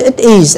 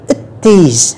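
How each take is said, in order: First: "it is" as two separate words; careful, louder "it is" without linking; unlinked full form. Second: "it is" run together as i-TIS; "it is" said as one joined word; linked reading. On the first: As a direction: keep "it" apart from "is". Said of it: "chúng ta đọc đầy đủ". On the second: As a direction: link the T of "it" onto "is". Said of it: "các bạn sẽ nghe đọc nối". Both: Shown as a demonstration.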